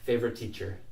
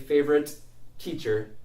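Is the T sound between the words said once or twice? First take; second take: once; twice. First: The two T sounds merge into one. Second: Two separate T sounds are pronounced. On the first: The speaker calls it right. "I'll say favorite teacher" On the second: The speaker calls it wrong. "So I won't say favorite teacher"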